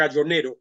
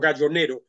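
First: The name is pronounced the Spanish way. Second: The name is pronounced the Spanish way.

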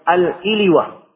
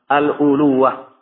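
First: The first vowel after al- is i. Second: The first vowel after al- is u. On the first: "Di kasrah hamzanya dan di takhfif wawnya" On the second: "dan boleh di dhammah al-uluwah"

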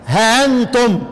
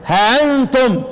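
First: The vowel after h is short, hamza softened. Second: The same.

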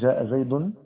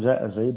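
First: The last word ends with a vowel and n. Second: The last word ends on a bare consonant. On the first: The speaker calls it wrong. "قالوا إذا وقفت بالتنوين فهذا من الغلو" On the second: The speaker calls it right. "المعروف أنك تقف بالتسكين"

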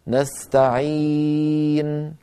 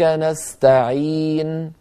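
First: The vowel before the final n is medium length. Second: The vowel before the final n is short. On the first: "بالتوسط" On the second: "لو قصرنا"

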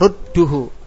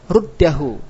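First: The vowel after the doubled d is u. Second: The vowel after the doubled d is a. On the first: "wajib dengan doma" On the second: "kalau dibaca fathah"

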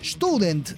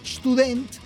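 First: The stress is on the first syllable. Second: The stress is on the last syllable. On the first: This is the expected native German pattern. "debería ser Student, según la pronunciación alemana" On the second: This pattern comes from French influence. "es Student por influencia del francés"

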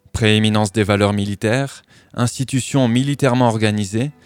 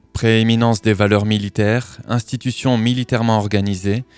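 The two takes are said the same way.

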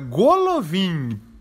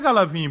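First: The first two vowels sound like 'o'. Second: The first two vowels sound like 'a'. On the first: The speaker calls it right. "É Golovin" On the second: The speaker calls it wrong. "todo mundo pronuncia Galavin, não é Galavin"

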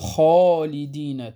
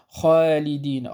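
First: The long vowel after the first consonant sounds heavy. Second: The long vowel after the first consonant sounds thin. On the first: The speaker calls it right. "إنما نقول خالدين، تفخم" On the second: The speaker calls it wrong. "فلا نقول خالدين"

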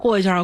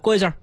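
First: It is said in a warm, polite way. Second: It is said in a curt, offhand way. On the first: The speaker is courteous to the people being passed. The speaker calls it right. "就是特别热情" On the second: The speaker lacks courtesy toward the people being passed. The speaker calls it wrong. "但是有些人就不懂"

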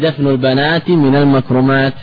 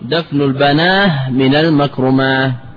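First: The word for daughters ends in a t sound. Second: The word for daughters ends in an h sound.

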